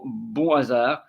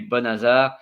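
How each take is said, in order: First: The two words are said apart, without linking. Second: The final sound links into the next word. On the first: The speaker calls it wrong. "You don't say" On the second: The speaker calls it right. "you notice the link"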